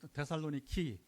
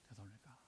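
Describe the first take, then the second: First: The name ends with a 'ki' sound. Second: The name ends with a 'ka' sound. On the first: This is how locals say the name. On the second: This is the usual Korean form of the name.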